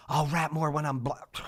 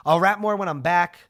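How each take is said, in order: First: Says "black" with a clear bl- where back was meant; "black" comes out instead of back, the same flat tone; slip of the tongue. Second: "back" said carefully without the l, a bit louder; correcting the slip. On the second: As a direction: fix the word to a clean "back" and push it out louder. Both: Real, not acted. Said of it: "Nobody clip that".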